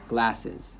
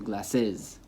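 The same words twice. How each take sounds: First: The stress is on the first syllable. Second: The stress is on the last syllable. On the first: The speaker calls it right. "the stress is on the second to last" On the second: The speaker calls it wrong. "as opposed to"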